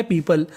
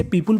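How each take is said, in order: First: पीपल with a short neutral vowel, pee-pl; correct pronunciation. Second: पीपुल with a full u, pee-pul; wrong pronunciation. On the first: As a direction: say पीपल the right way, no u. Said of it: "इसका सही उच्चारण होता है पीपल". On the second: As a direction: say पीपुल the mistaken way. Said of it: "जो कि गलत होता है". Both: Shown as a demonstration.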